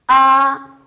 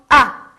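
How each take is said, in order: First: The pitch stays high and level. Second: The pitch falls sharply from high to low. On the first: "일성은 이렇게 얘기해요" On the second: "사성"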